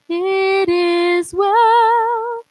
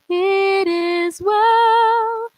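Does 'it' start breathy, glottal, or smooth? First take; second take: smooth; smooth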